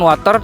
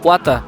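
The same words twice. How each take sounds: First: It is read letter by letter, as spelled. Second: It is pronounced with the English sounds. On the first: "walaupun tulisannya water, tapi bacaannya agak berbeda" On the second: "yang diucapkan dalam bahasa Inggris adalah water"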